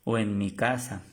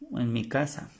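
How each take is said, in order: Both takes have the same delivery.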